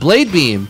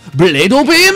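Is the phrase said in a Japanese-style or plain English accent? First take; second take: plain English; Japanese-style. First: It is said in a plain English accent. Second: It is said in a Japanese-style accent.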